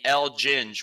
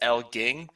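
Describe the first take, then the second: First: The name ends with a soft j sound. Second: The name ends with a hard g sound. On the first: The speaker calls it right. "I used to be El Ginge, ... because I'm a ginger" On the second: The speaker calls it wrong. "people would constantly pronounce it as El Ging"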